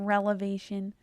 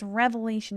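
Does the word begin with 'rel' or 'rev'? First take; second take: rel; rev. First: The word begins with the sounds 'rel'. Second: The word begins with the sounds 'rev'. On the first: The speaker calls it wrong. "not relevation" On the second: The speaker calls it right. "It's revelation"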